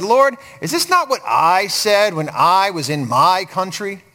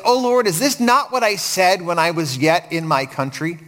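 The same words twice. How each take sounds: First: Slow reading punching each "I" and "my"; stress on I, my. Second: Said in the usual way. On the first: Shown as a demonstration. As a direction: lean hard on "I" and "my". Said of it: "he says, "I, me, or my".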